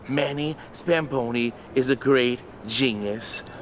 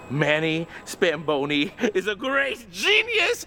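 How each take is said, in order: First: It is said calmly, with even low energy. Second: It is said excitedly, with loud high energy. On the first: It is a plain statement. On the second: It is an enthusiastic exclamation. "Let's try an exclamation point"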